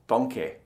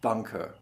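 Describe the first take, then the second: First: The final vowel sounds like an unrounded e. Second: The final vowel sounds like a rounded ö. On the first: "in Süddeutschland hören Sie zum Beispiel viel mehr Danke mit einem E" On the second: "in einer norddeutschen Aussprache Danke, bitte mit einem Ö"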